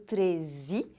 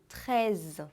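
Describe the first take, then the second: First: The word ends with an added 'ee' vowel. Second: The word ends cleanly on a z sound. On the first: The speaker calls it wrong. "no final eu não faço aquele som de I, percebeu? Eu não digo treze" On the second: The speaker calls it right. "e sim treize, termina com som de Z"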